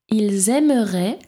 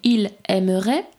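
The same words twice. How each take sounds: First: The s of ils links as z to aimeraient. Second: The s of ils is silent, no link. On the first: "J'ai fait la liaison" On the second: "Sinon, ça ferait ils aimeraient"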